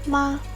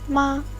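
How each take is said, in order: Both takes have the same delivery.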